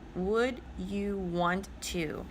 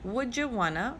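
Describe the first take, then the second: First: 'Want to' is said as two full words. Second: 'Want to' is blended into 'wanna'.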